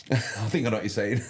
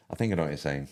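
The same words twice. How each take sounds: First: Laughing through the words, pitched up. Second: Said in the usual way. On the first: Real, not acted. Streamer laughs while answering a viewer's chat comment.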